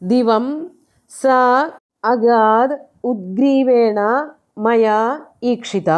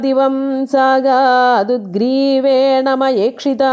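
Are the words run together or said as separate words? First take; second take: separated; joined. First: Each word is said separately without sound joins. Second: The words are merged together with sound joins.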